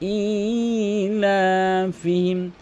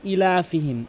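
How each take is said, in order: First: The first vowel is lengthened. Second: The first vowel is short. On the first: The speaker calls it right. "এক আলিফ টেনে পড়তে হবে" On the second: The speaker calls it wrong. "অধিকাংশ লোক বলে"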